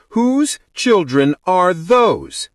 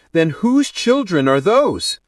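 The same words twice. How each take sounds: First: Slow, high, emphatic demand; insistent demand. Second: Demanding. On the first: Bride presses bridesmaid about the children, insistent. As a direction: stretch out each word insistently. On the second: Bride demands an answer. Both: A narrator's reading.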